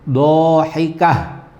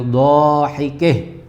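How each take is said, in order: First: The final syllable ends with an open 'ah' sound. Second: The final syllable ends with a fronted 'ih' sound.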